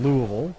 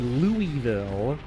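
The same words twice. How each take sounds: First: The city name is said the local Kentucky way. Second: The city name is said the outsider's way. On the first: The speaker is from Kentucky. The speaker calls it right. "It is pronounced by a Kentuckian Louisville" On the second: The speaker is not from Kentucky. The speaker calls it wrong. "the way you can immediately tell someone that's not from Kentucky"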